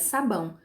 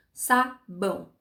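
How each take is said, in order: First: Said in the usual way. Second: "sabão" slowly broken as sa, bão; two separate beats in "sabão", sa then bão; split into syllables. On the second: Shown as a demonstration. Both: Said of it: "Duas sílabas".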